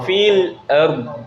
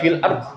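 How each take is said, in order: First: The final consonant is pushed and drawn forward. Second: The final consonant is cut short without pushing. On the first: The speaker calls it right. "didorong fil ard" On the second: The speaker calls it wrong. "nggak fil ard"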